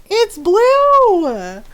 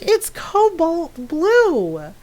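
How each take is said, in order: First: High, loud "It's blue" in disbelief; exasperated shout. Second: "It's cobalt blue" drawn out very slowly; slow insistence. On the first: Insisting to friends who call it purple, loud and exasperated. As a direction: yell it like it's obvious. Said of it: "I'm just like". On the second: Correcting friends about the blanket colour, slow and emphatic. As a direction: spell it out word by word, exasperated. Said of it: "It's like". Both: Retold or imitated.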